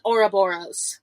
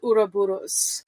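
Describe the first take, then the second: First: The word is said with a plain American R. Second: The word is said with a rolled R. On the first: "That's the American pronunciation" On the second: "I like rolling the R, so that's why I say it like that"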